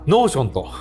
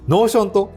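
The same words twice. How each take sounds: First: The pitch accent falls at the word's beginning. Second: The pitch accent falls later in the word. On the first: The speaker calls it wrong. "福岡の人たちはイントネーション初めに置きたがる" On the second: The speaker calls it right. "違うね。"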